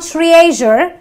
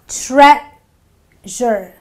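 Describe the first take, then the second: First: The first vowel is a long 'ee' sound. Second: The first vowel is a short 'eh' sound. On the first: The speaker calls it wrong. "It's not treasure" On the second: The speaker calls it right. "The E is silent in this word, so I say treasure"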